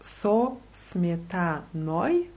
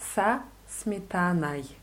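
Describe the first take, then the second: First: The unstressed vowels sound like a clear 'o'. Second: The unstressed vowels sound like an 'a'. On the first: "wenn man das jetzt so ausspricht, wie man es schreibt" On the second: "wenn man es normal ausspricht, ein bisschen übertrieben"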